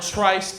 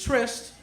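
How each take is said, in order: First: It ends with an -ice sound, like 'nice'. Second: It ends with an -ist sound, like 'list'. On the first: The speaker calls it wrong. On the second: The speaker calls it right.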